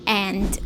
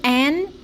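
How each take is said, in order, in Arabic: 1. الكلمة تنتهي بصوت د واضح. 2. الكلمة تنتهي بدون صوت د. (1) "مش بنقول and" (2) "بنقول an"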